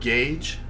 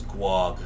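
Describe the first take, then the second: First: The word rhymes with 'page'. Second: The word rhymes with 'bag'. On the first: The speaker calls it right. "so you know that word gauge?" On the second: The speaker calls it wrong. "For the longest time, I thought it was guag"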